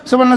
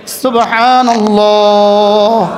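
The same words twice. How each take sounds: First: It is said fast, all in one breath. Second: It is said slowly and calmly.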